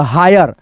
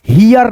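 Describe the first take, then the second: First: हायर said as "hai-yar", the right way; correct reading. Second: हियर said as "hee-yar", the wrong reading. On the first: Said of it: "पढ़ने का तरीका गलत होगा". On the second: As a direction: read हियर wrongly as "hiyar". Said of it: "इसको पढ़ेंगे हम लोग हियर नहीं". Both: Shown as a demonstration.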